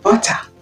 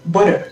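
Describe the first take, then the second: First: It is said in a British accent. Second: It is said in an American accent. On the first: "l'anglais britannique dira butter" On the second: "mais l'anglais américain dira butter"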